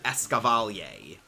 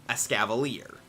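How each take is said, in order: First: The final 'er' is said as 'ay'. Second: The final 'er' is not said as 'ay'. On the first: The speaker calls it wrong. "I called it Escavalier" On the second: The speaker calls it right. "is pronounced Escavalier"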